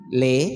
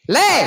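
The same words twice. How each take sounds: First: The call is said calmly at normal loudness. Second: The call is shouted with a raised voice. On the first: A gentle reminder that prayer time is near. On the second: The parent has lost patience and is yelling.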